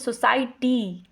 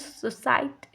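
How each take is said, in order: First: The word ends with a clear ee vowel. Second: The final ee vowel is cut short. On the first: "जैसे यहाँ पे सोसाइटी तो बोलते हैं" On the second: "वहाँ पे लोग बोलेंगे सोसाइट"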